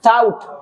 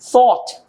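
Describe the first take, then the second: First: The word starts with a plain t sound. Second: The word starts with a th sound. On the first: "अब हम अक्सर कहते हैं" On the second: "ऐसे गोरा कहता है"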